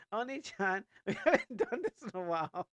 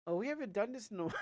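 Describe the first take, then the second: First: Put-on higher and louder cute girl voice; sweet, eager anime little sister; bright kid-sister read of the line. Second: Higher and louder, fast, breaking into a laugh; giggly first take of the line; laughing line read. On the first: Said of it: "second take in character voice". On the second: Shown as a demonstration. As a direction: rush it out with a giggle. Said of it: "retake of the same line".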